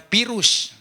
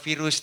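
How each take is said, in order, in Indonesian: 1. Kata itu diawali dengan bunyi P. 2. Kata itu diawali dengan bunyi V. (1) "semua di Sunda mah pakai P" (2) "orang Sunda itu tidak mengenal virus"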